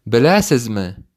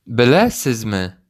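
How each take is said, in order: Both takes have the same delivery.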